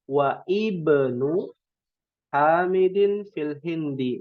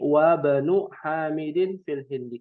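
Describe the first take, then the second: First: The 'i' of 'ibnu' is pronounced separately. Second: The 'i' of 'ibnu' is dropped and linked. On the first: The speaker calls it wrong. "Kalau kita tidak tahu kaidah eh, hamzah wasal ... Nah, ini keliru ya" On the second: The speaker calls it right. "Yang sahih"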